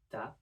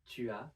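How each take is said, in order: First: The U vowel of 'tu' is dropped. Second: The U vowel of 'tu' is pronounced. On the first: This is the quick, informal form. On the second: This is the careful, formal form.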